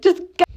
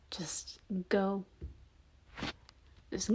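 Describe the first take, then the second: First: Higher, louder push to flee; urgent yell. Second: Soft hushed push to leave; whispered urging. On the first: Retold or imitated. Narrator voicing the listener telling the group to flee, a loud yell. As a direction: shout it, hurry them. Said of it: "And you're just like". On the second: Acted. Bob telling the listener to leave, whispered.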